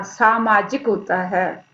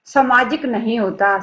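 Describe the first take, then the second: First: सामाजिक with a long सा, slow and correct; right long vowel. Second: सामाजिक said with a short first a, the wrong way; सामाजिक with स not lengthened, the error form; wrong short vowel. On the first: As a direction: stretch the सा in सामाजिक. (सही उच्चारण, लंबा सा) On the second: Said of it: "मनुष्य एक सामाजिक प्राणी होता है". (गलत उच्चारण, छोटा स) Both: Shown as a demonstration.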